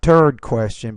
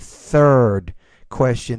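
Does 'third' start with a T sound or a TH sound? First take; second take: T sound; TH sound. First: The first word starts with a T sound. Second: The first word starts with a TH sound. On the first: The speaker calls it wrong. "not third question" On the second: The speaker calls it right. "but the third question"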